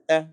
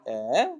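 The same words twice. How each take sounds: First: The vowel is clipped short. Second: The vowel is drawn out long. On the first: "you say eh" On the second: "Instead of saying eh"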